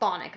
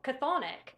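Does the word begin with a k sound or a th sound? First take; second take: th; k. First: The word begins with a th sound. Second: The word begins with a k sound. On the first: The speaker calls it right. "I believe it's pronounced thonic though" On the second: The speaker calls it wrong. "I always said catho- cathonic"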